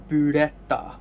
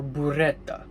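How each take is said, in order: First: Burrata said in a Japanese accent. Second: Burrata said in an Italian accent. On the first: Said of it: "one in Japanese accent". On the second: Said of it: "in Italian accent". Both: Shown as a demonstration.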